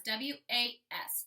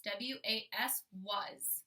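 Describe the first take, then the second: First: Letters spelled out slowly; slow spelling. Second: Spelled slowly then the word, softer; slow, softer spelling. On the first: Teacher spelling the sight word for kids, slowly. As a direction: spell W A S one letter at a time. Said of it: "I know how to write my sight word was". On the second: Teacher repeating the spelling for kids, slow and soft. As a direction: spell it again slowly and say was softly. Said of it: "my sight word was". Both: Shown as a demonstration.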